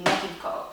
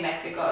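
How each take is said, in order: First: "Mexico" said the Spanish way, x as h; Spanish pronunciation. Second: Said in the usual way. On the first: Shown as a demonstration. Showing how to say Mexico in Spanish, "Mexico" with an h sound. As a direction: say "Mexico" as MEH-hee-ko. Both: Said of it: "if you wanna say Mexico in Spanish".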